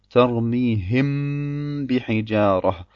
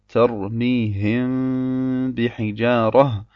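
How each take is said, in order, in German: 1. Die Lippen drücken beim m zu fest zusammen. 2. Die Lippen lassen beim m einen kleinen Spalt. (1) "noch darf man zu sehr auf die Lippen drücken" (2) "Weder darf zwischen den zwei Lippen eine Spalte sein, so dass es sich so anhört"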